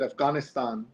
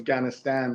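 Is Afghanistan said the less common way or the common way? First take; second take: less common; common. First: It is pronounced in the less common native way. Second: It is pronounced the way most Americans say it. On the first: "I said Afghanistan" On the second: "which most people say"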